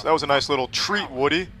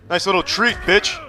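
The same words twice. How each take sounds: First: Said in the usual way. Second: Higher and louder jeering taunt; mocking taunt. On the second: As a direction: rub it in, sing-song. Repeats taunt louder mid-fight.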